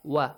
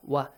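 First: It starts with a rounded w sound. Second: The same.

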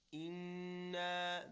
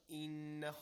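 First: The double nun is held nasally for two counts. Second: The double nun is short with no stretch. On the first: The speaker calls it right. "There is a stretch... Just two counts" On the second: The speaker calls it wrong.

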